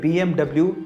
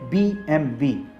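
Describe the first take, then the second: First: The last letter is said as double-u. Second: The last letter is said as vee. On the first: It is read as English letter names. The speaker calls it wrong. "इसे बीएमडब्ल्यू नहीं पढ़ा जाता" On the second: It is read as German letter names. The speaker calls it right. "इसका सही उच्चारण है"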